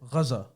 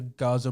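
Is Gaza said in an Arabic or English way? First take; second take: Arabic; English. First: It is said with an Arabic-style pronunciation. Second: It is said with a common English pronunciation. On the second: "most people say Gaza. Even I say Gaza"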